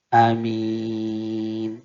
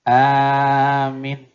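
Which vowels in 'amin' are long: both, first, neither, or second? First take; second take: second; first. First: The first vowel is short, the second long. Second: The first vowel is long, the second short. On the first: "pendek di depan, panjang di belakang" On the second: "dipanjang, pendek di belakang"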